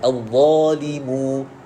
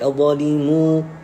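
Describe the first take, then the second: First: The vowel of mu is clear, without nasal sound. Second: The vowel of mu is nasalized through the nose. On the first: The speaker calls it right. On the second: The speaker calls it wrong. "suara khayshum, salah"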